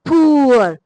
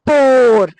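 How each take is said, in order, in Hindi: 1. स्वर 'oo' से 'uh' तक फिसलता है। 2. स्वर एक ही लंबी 'aw' ध्वनि है। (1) "इस तरह बोलते थे" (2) "उसी के अ, अंदाज में बोले तो ये है पोर"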